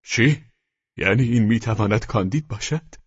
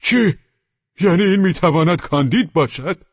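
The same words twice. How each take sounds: First: Restrained cry of disbelief; astonished cry. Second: High, loud cry of disbelief; astonished shout. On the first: One convict recognises Candide, a restrained astonished cry. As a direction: exclaim in mild astonishment, barely raised. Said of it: "یکی از مجرمان فریاد زد". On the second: The other convict recognises Candide, a loud astonished shout. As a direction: shout it out, pitched well up. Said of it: "دیگری فریاد زد". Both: A narrator's reading.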